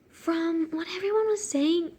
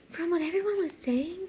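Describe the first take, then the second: First: Lightly put-on annoying character; a hint of an annoying woman. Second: Lightly voiced woman, breaking from a laugh; retry her line after laughing; a touch of character voice; annoying woman voice, retried. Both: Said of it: "giving her such an annoying voice".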